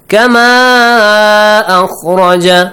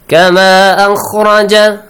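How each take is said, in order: First: The final vowel of kama is stretched long. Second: The final vowel of kama is kept short. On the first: "the same thing" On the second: "Let's ignore the mat"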